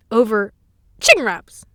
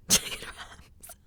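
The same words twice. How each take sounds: First: Loud, emphatic CHICKEN WRAPS; punched-out incredulous words. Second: Slow, hushed "Chicken wraps"; drawn-out breath-only whisper. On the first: Repeating the absurd cause. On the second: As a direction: whisper it in mock disbelief. Repeats the absurd cause in whisper. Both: Acted.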